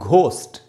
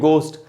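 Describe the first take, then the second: First: It starts with a breathy, aspirated g sound. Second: It starts with a plain, unaspirated g sound. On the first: The speaker calls it wrong. "इसको अपने यहां पढ़ते हैं हम घोस्ट" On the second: The speaker calls it right. "ये होना चाहिए गोस्ट"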